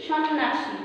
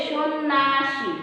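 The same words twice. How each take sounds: First: "সন্ন্যাসী" read out slowly by its spelling; as written. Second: "সন্ন্যাসী" slowly as shon-naa-shi; as pronounced. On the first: Teacher shows students how we write it, spelling reading. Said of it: "আমরা কিন্তু লিখি". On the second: Teacher shows how we say it, slowly syllabified. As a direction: stretch "সন্ন্যাসী" in syllables, silent y-glide. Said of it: "যখন উচ্চারণ করি তখন". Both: Shown as a demonstration.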